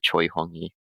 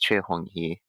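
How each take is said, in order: First: The name is pronounced with English sounds. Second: The name is pronounced with Korean sounds. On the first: "in English you would pronounce it" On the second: "his Korean name is"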